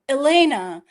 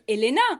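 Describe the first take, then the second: First: The name is said with an American pronunciation. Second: The name is said with a French pronunciation. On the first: "in the U S, I was always, oh" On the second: "here in France, everybody calls me"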